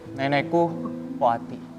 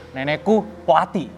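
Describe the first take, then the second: First: It is said in a sad tone. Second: It is said in an angry tone.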